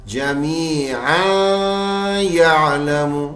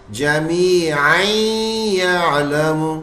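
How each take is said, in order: First: Slow chant, "जमीआ" held open, "यालमु" separate; wrong joined reading. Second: Slow chant, n of "जमीअन" turned into held y; merged tanween into ya. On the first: Teacher asks students about wrong joining, "जमीआ" unmerged before "यालमु". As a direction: stretch the end of "जमीआ" without gliding into y. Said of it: "इस तरह पढ़ेंगे?". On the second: Teacher shows students correct joining, "जमीअन" merged into "यालमु". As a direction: glide "जमीअन" nasally into doubled y of "यालमु". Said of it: "इस तरह पढ़ेंगे". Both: Shown as a demonstration.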